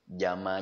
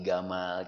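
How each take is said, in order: First: The name starts with a j sound. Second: The name starts with a hard g sound.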